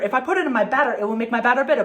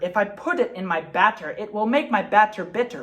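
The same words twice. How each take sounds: First: It is said fast. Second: It is said slowly.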